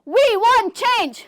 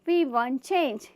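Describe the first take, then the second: First: It is said loudly and forcefully. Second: It is said softly and weakly.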